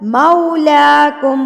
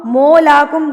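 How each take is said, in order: First: Slow मौलाकुम with an a-to-oo glide; mau, not mo. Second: मौलाकुम opened with a plain long o, "molakum"; wrong mo demo. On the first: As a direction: recite मौलाकुम opening "mau", lips rounding. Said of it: "मो नहीं है ये, मऊ है". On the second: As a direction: say मौलाकुम as "mo", dropping the au glide. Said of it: "गलत". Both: Shown as a demonstration.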